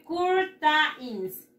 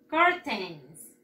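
First: "curtains" read Spanish-style as cur-ta-ins; as written. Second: "Curtains" said kor-teins, in two falling beats; correct pronunciation. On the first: Teacher reading "curtains" as it is spelled, Spanish sounds. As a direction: sound out every letter of "curtains", slow. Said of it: "Se escribe así". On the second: Teacher showing how "Curtains" is pronounced, careful English sounds. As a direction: model "Curtains" with an o in the first syllable. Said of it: "Se pronuncia así". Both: Shown as a demonstration.

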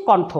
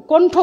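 First: কণ্ঠ as "kawntho" with open "aw"; correct open vowel. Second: কণ্ঠ as "kontho" with closed "o"; wrong closed vowel. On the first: Teacher shows what is said, কণ্ঠ with open "aw". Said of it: "করছি". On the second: Teacher shows what not to say, কণ্ঠ with closed "o". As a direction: round the first vowel of কণ্ঠ to "o". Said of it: "উচ্চারণ করছি না". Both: Shown as a demonstration.

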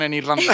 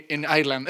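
First: Said in the usual way. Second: "Ireland" said the English way; affected English accent. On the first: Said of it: "Eh, perdón, en Irlanda". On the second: Retold or imitated. Boy bragging about his trip abroad, affected English accent. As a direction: slip a show-off English "Ireland" into Spanish. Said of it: "lo hacía para hacerme el chulo".

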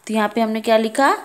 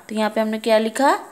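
No difference in how they are said.

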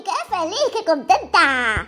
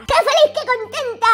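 First: Said in the usual way. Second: "qué feliz" pitched up high in a bright singsong cheer; cheerful high exclamation. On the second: Shown as a demonstration. Host celebrating the fixed-up girl, high cheerful cheer.

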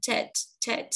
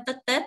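First: "Tết" with the T released in a puff; "Tết" said as English "tet", aspirated T; English popped T. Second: "Tết" with a plain unaspirated Vietnamese T; "Tết Tết" the Vietnamese way, no puff on the T. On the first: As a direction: pop the T hard in each "Tết", English style. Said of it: "nhớ bật âm tờ ra". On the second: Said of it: "mình không nói Tết Tết". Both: Shown as a demonstration.

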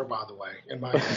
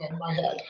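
First: Chuckling through the words, lower and softer; a joking aside, laughed out; amused half-laugh. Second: Playful insistence on "my", slowed; stress on my. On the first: Joking aside about coffee. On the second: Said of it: "I don't think so". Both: Real, not acted.

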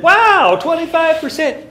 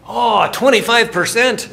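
First: Loud, high-pitched mock astonishment; acted amazement. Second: Loud, high mock-Scottish exclamation; terrible Scottish accent. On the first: Lecturer replaying his reply to the Scotsman, amazed. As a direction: exclaim it as if staggered. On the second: Scotsman answering about discount rate, terrible Scottish accent. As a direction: belt it out in a bad Scottish accent. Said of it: "That's my terrible Scottish accent".

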